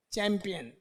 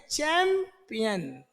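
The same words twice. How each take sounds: First: Said in the usual way. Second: champion split slowly as चैं, pause, peon; syllable by syllable. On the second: Shown as a demonstration. Teacher showing students the ch sound, slowly broken up. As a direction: draw out the चैं of champion, then finish. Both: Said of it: "चय की आवाज आ रही है".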